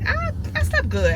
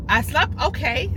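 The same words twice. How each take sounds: First: Slept good sung out high; sing-song "I, I slept good"; playful high. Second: Said in the usual way. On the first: Real, not acted.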